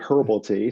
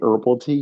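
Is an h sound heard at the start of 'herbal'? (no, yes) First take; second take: yes; no. First: The word starts with a clear h sound. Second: The word starts with a vowel, no h sound. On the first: This is how people over there say it. "but y'all say herbal tea" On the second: This is how people here say it. "we say herbal tea here"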